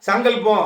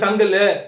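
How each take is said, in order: First: The word is said in full, ending in 'pam'. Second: The word is clipped, ending in 'lu'. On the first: The speaker calls it right. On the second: The speaker calls it wrong.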